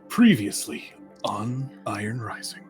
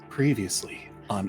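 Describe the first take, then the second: First: It is said in a dramatic anime-series announcer voice. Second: It is said in a plain, ordinary voice.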